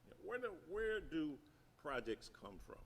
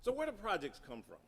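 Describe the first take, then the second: First: Quieter repeat. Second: Said in the usual way. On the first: Shown as a demonstration. Preacher softly repeats his question to the congregation. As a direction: repeat the question softer, dropping away.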